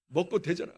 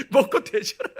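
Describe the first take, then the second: First: Said in the usual way. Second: Loud, laughing through the mother's curse; laughing mock curse. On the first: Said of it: "이렇게 이야기해요". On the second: Laughing at mother's gruff curse, loud. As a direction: retell it laughing, louder. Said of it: "지금도 기억나".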